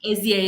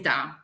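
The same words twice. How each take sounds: First: The letters are spoken with English letter names. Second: The letters are spoken with Italian letter names. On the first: "But S D A is fine" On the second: "Like in Italian, we say S D A"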